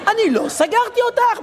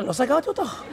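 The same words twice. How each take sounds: First: High, exasperated mock denial; indignant protest. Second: Said in the usual way. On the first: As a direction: protest your innocence at a high pitch.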